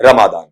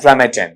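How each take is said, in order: First: "रमादान" with long open "maa" and "daan"; Hindi-Urdu pronunciation. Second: "रमजान" as ra-muh-dain; English pronunciation. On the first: Teacher giving the Urdu, Arabic, Hindi reading, "रमादान" as ra-maa-daan, Hindi-Urdu pronunciation. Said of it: "इस तरीके से पढ़ा". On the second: Teacher joining the sounds up, "रमजान" as ra-muh-dain, English pronunciation. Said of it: "ये पढ़ा जाता है". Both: Shown as a demonstration.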